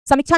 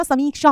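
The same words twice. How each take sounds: First: समीक्षा with a short i and a chha ending; समीक्षा mispronounced with short i, "chha" for "sha"; wrong short-vowel form. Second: समीक्षा with a long ee and a sha ending; समीक्षा, middle vowel held long, ending in "ksha"; correct long-vowel form. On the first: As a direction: say समीक्षा as "samichchha", middle vowel cut short. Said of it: "समीक्षा नहीं होता". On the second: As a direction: say समीक्षा as "sameeksha". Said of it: "समीक्षा होता है". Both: Shown as a demonstration.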